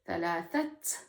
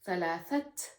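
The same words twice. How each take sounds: Both takes have the same delivery.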